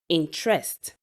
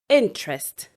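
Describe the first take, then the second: First: The stress is not on the first syllable. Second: The stress is on the first syllable. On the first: The speaker calls it wrong. "People would usually say" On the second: The speaker calls it right. "the stress is on the first syllable of the word"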